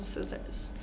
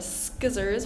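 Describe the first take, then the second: First: The word begins with a plain S sound. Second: The word begins with an SK sound. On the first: The speaker calls it right. "we want to say ... scissors" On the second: The speaker calls it wrong. "instead of ... skizzers"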